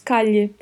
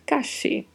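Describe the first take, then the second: First: The double L sounds like Portuguese lh. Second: The double L sounds like English sh. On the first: "Pode ter som de LH" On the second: "E pode ter som de X"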